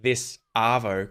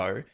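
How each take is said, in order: First: Both words are said fully and separately. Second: The words are squeezed into one short word. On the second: "we just contract this down to"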